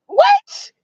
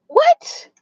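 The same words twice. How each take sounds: First: Squeaked way up high in disbelief; a stunned falsetto what; jaw-drop shriek of what; shocked what. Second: Breathless unvoiced what, high; a hushed shocked what; whispered what. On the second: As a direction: whisper it, stunned. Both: Real, not acted.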